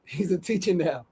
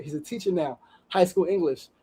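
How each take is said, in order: First: Teary laugh on the words; laughing through tears. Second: Softer, choked-up repeat. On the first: Host moved by the story, laughing emotionally. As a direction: let a moved laugh break in. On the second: Host repeating the line, choked up with emotion. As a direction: say it again, caught by emotion. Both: Real, not acted. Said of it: "This shit has got me crying".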